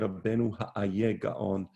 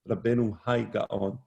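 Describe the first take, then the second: First: The middle word sounds like 'ayeh', two syllables. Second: The middle word sounds like 'I', one syllable. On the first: This is the older, original pronunciation. "I was taught to say Rabbeinu Ha'aye Gaon" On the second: This is how almost everyone says it. "almost everybody says Rabbeinu Hai Gaon"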